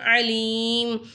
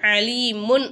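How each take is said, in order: First: The word ends on a bare m sound. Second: The word ends with a final -un sound. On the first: The speaker calls it right. "அலீம் அப்படின்னு நம்ம நிப்பாட்டணும்" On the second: The speaker calls it wrong. "அலீமுன் அப்படின்னு நிப்பாட்டாம"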